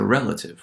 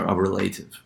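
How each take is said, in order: First: "relative" stressed on REL, first syllable; correct stress on relative. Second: "relative" with the stress pushed onto LATE; wrong stress on relative. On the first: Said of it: "we say, oh, he's a relative". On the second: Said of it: "We don't say a relative". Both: Shown as a demonstration.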